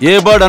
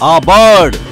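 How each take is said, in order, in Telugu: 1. 'a' అనే పదం అక్షరం పేరు 'ay' లాగా వినిపిస్తుంది. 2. 'a' అనే పదం చిన్న 'uh' లాగా వినిపిస్తుంది. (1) "ఏ బర్డ్ అనకూడదు" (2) "పదముగా అయితే ఆ అని పలకాలి"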